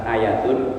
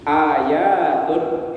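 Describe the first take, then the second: First: The vowel is kept short. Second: The vowel is held long. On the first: It means one sign. The speaker calls it wrong. "bukan ayatun" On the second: It means many signs. The speaker calls it right. "itu bacanya panjang"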